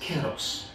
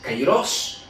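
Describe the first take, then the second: First: The first vowel sounds like 'eh'. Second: The first vowel sounds like 'eye'. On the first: This is the modern Greek pronunciation. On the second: This is the ancient Greek pronunciation.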